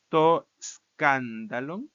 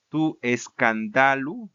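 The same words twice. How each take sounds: First: "escándalo" stressed on KAN, drawn out slowly; slow Greek recitation, "escándalo" as SKAN-da-lon; stress on first syllable. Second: "escándalo" said slowly as skan-DA-lu; slow recitation, "escándalo" stressed on DA, ending in u; stress shifted to penult. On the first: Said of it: "este va a cambiarse en el genitivo". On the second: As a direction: land loudly on DA in "escándalo". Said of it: "a la penúltima sílaba". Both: Shown as a demonstration.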